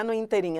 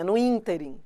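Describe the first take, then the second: First: "interim" as "inteRIM"; "no interim" with weight on the final "RIM"; wrong final stress. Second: "ínterim" as "ÍNterim", falling; "no ínterim" with weight on "ÍN"; first-syllable stress. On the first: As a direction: put the stress on the last syllable of "interim". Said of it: "Não é". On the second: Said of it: "é no ínterim". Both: Shown as a demonstration.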